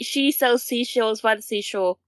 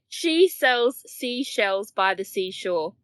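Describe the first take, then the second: First: It is said fast. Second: It is said slowly.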